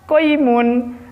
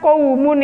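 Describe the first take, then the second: First: The first syllable has an 'oi' sound. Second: The first syllable has an 'au' diphthong. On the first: The speaker calls it wrong. "anak-anak dibaca koimun" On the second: The speaker calls it right.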